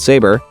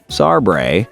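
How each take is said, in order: First: The name is pronounced the standard way. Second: The name is pronounced in a distorted way.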